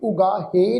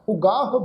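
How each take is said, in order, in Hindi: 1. शब्द के अंत में एक अतिरिक्त 'e' स्वर जुड़ा है। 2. शब्द के अंत में कोई अतिरिक्त स्वर नहीं जुड़ा है।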